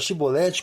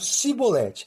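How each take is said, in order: First: The word begins with an 'sh' sound. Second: The word begins with a plain 's' sound. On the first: The speaker is one of the Gileadites. "pronunciavam a palavra Shibolete com S H" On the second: The speaker is one of the Ephraimites. "não conseguiam pronunciar o S H"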